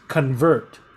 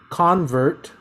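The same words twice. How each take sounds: First: The stress is on the second syllable. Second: The stress is on the first syllable. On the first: The word is used as a verb. "the stress is on the second syllable" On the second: The word is used as a noun. "stresses on the first syllable"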